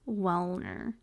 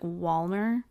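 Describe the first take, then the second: First: The first vowel sounds like 'well'. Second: The first vowel sounds like 'wall'. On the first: The speaker calls it right. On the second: The speaker calls it wrong.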